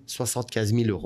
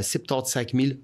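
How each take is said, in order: First: Said in the usual way. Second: "soixante-quinze" said the Belgian way, as septante-cinq; Belgian number wording. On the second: Shown as a demonstration. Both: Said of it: "Pour les Français".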